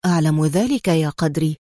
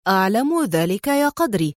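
First: Low-pitched, composed reply; calm. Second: Light mimicry of a friend's calm reply; imitating Adham. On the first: Adham answering his excited friend Qadri, calmly. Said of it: "قال أدهم في هدوء". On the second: Qadri mimicking his friend's style, lightly teasing. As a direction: echo his composed line, mildly mocking. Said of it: "وهو يقلد أسلوب أدهم". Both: A narrator's reading.

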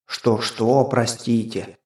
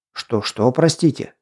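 First: Mimicking, teasing the hero; mocking imitation. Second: Said in the usual way. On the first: A narrator's reading. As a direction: parrot it back mockingly. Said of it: "передразнил меня меч". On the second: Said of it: "Стараясь сохранить невозмутимость".

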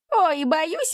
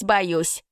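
First: Mock fright, jumping much higher on ой; hammed-up wail of fake fear. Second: Mock wail sinking back down; mock lament falling. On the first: (шутливо причитает, взлетая на «ой») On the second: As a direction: fake fright easing off at the end. (шутливое причитание, затихающее вниз) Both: A narrator's reading. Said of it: "запричитал первый".

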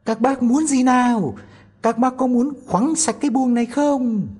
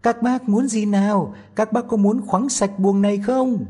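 First: Very high, loud tiny voice, pushing harder; asking even louder. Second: Put-on high, loud tiny-boy voice shouting up; a tiny boy calling out loud to the thieves; Tom Thumb asking loudly. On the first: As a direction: shout it out deliberately to wake the house. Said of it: "lại lớn tiếng hỏi". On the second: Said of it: "hỏi thật to". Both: A narrator's reading.

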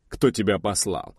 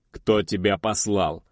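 First: Cold, even question; impassive. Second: Slow, cold repeat; cold-blooded. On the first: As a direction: ask it without feeling. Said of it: "бесстрастно спросил он". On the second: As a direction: press the question slowly and coldly. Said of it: "хладнокровно повторил индеец". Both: A narrator's reading.

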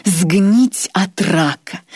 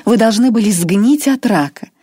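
First: Сгнить от рака drawn out very slowly; savoured slowly. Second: Higher, louder curse; gloating. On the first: Irma repeats his fate to Grois, savouring it. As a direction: linger on every word with pleasure. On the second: Irma wishes cancer on Grois, gloating. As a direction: spit out сгнить от рака with relish. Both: Acted. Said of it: "с явным удовольствием".

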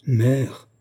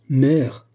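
First: Mild indignant exclamation, rising at the end; indignant cry. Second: Louder, higher indignant cry, falling at the end. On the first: Daughter protesting at her mother's doubt, mild indignant cry. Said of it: "s'écria Olga, pâle d'indignation". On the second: Daughter cutting off her disbelieving mother, louder indignant cry. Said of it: "cria une seconde fois la jeune fille indignée". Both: A narrator's reading.

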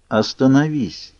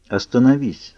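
First: Slow, firm Остановись with new force; firm, forceful. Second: Calmly repeated stop. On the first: Alice commands Edward to stop, slow and forceful. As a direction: lay weight into Остановись, slowly. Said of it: "в её голосе зазвучала сила". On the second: Alice calmly repeats her order to Edward, even tone. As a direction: say it evenly, no rush. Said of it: "спокойно повторила девушка". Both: A narrator's reading.

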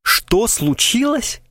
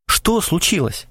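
First: Much higher, slow, hammed-up theatrical cry; milk it like a tragic actor; pathetic exclamation. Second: Slowed, anxious asking; a touch of worry in the question; alarmed question. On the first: Krysakov mocking Krasilnikov, hammed-up pathetic exclamation. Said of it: "патетически воскликнул он". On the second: Alarmed Krasilnikov asks Krysakov, mildly anxious. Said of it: "повернулся к нему встревоженный Красильников". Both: A narrator's reading.

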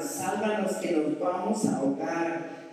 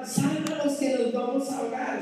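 First: Said in the usual way. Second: Higher acted plea over the storm; mock cry for help. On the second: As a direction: shout for rescue, half acted.

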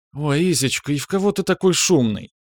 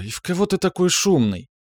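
First: High, playful woman's voice; light, high-pitched banter; joking retort. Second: High-pitched woman's mild scolding; mildly disgruntled, high female scolding; displeased reproach. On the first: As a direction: tease him fondly in a raised pitch. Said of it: "отшутилась Ефимова". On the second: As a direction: chide him in a raised, put-out voice. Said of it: "с неудовольствием попеняла Альбина". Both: A narrator's reading.

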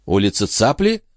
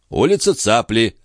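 First: Higher, rising echo; sudden query. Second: Unhurried confirmation without a question; phlegmatic. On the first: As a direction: ask it back, struck by the name. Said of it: "вдруг переспросила Шон". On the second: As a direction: repeat it placidly. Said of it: "флегматично повторил Жан". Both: A narrator's reading.

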